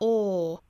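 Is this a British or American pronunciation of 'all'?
British. The vowel is said with tightly rounded lips. "英音的话口型更加聚拢"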